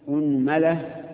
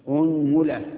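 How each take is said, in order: The two takes are said the same way.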